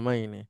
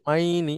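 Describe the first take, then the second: First: The vowel in the word is kept short. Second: The vowel in the word is drawn out. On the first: The speaker calls it right. "এখানে টান হবে না" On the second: The speaker calls it wrong. "মাইনি এভাবে বলা যাবে না।"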